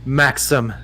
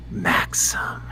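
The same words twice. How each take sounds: First: Said in the usual way. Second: Soft, breathy whisper; breathed. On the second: A narrator's reading. Woman answering her lover with his name, breathy whisper. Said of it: "she breathes".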